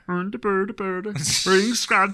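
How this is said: It is said in a Swedish Chef voice.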